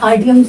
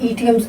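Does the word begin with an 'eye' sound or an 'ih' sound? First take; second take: eye; ih. First: The word begins with an 'eye' sound. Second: The word begins with a short 'ih' sound. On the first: The speaker calls it wrong. "आइडियम्स नहीं" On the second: The speaker calls it right. "इडियम्स बोलते हैं"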